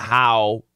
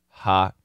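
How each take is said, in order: First: The word has its full diphthong vowel. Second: The vowel is reduced to a short ha. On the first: "It's not how" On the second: "It's ha. We know the daily pronunciation of how is ha"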